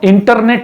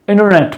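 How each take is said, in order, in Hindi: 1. N के बाद वाला T साफ़ बोला जाता है। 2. N के बाद वाला T साइलेंट है। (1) "इसको हम इंटरनेट नहीं बोलेंगे" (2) "टी बिकम्स साइलेंट"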